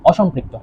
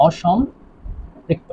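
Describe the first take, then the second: First: Said in the usual way. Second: অসম্পৃক্ত very slowly, split in two with a pause; drawn-out dictation. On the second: Shown as a demonstration. Teacher spelling out a term to students, অসম্পৃক্ত slowly in pieces. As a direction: stretch and break up অসম্পৃক্ত for note-takers.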